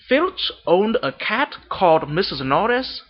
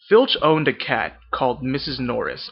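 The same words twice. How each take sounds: First: It is read in a Vietnamese accent. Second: It is read in an American accent. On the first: "I'm going to start reading in my Vietnamese accent" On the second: "this is my American accent"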